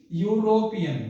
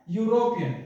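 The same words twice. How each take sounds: First: यूरोपियन drawn out as "yoo-ro-pi-yan"; slow pronunciation. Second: Said in the usual way. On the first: Shown as a demonstration. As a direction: say यूरोपियन syllable by syllable, falling at the end. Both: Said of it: "इसका जो उच्चारण है".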